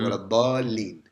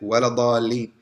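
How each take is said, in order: First: The doubled l sound is held long. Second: The doubled l sound is cut short. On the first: The speaker calls it right. "you hold it" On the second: The speaker calls it wrong. "we don't say"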